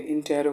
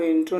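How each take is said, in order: First: इंटेरो as in-te-ro, three syllables; इंटेरो with the middle vowel sounded; corrected pronunciation. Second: इंट्रो as in-tro, two syllables; इंट्रो without the middle vowel; mispronunciation shown. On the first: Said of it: "इंटेरो कहेंगे". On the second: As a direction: run t and r together in इंट्रो. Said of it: "तो इंट्रो नहीं कहेंगे". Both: Shown as a demonstration.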